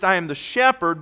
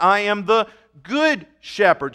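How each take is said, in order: First: Said in the usual way. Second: "Good" punched louder in "I am the Good Shepherd"; stress on Good. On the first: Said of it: "not just". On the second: Shown as a demonstration. Preacher contrasting the shepherd with the Good Shepherd. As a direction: hit the word Good hard.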